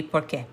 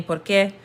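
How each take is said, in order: First: "Por qué?" said low and falling as one word, like "porque"; answer porque. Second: "Por qué?" with rising question tune. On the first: Teacher models the answer to students, low and falling. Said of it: "the natural way to answer would be". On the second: Teacher models the question to students, rising. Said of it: "poses a question saying". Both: Shown as a demonstration.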